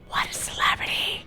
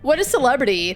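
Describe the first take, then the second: First: It is spoken in a whisper. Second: It is spoken in a normal voice. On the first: The speaker calls it right. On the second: The speaker calls it wrong.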